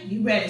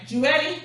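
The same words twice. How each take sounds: First: You ready. dropping flat at the end; falling statement. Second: You ready? lifted high at the end; rising question. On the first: Trainer answers her own question, falling tone. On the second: Trainer checks if class is ready, rising question. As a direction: ask "ready" with a bright upward lilt. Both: Shown as a demonstration.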